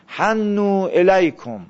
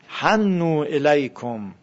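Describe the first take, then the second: First: حنو الیکم spelled out slowly, hannu with a doubled n; slow careful recitation. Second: حنو الیکم drawn out slowly, stressing حنو; slow careful recitation. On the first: Teacher reciting to class, slow and careful. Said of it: "به معنی تمایل پیدا کردن". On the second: Teacher repeating the phrase to students, slowly. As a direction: linger on حنو الیکم as a model. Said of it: "به شما متمایل باشن". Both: Shown as a demonstration.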